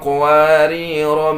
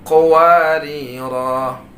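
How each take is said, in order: First: The word ends with a short final vowel. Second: The word ends with a long final vowel. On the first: "kalau kita baca wasal berlanjut... Maka rohnya dibaca pendek" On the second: "ketika kita baca wakaf, huruf di bawahnya dianggap atau dibaca menjadi mad iwad"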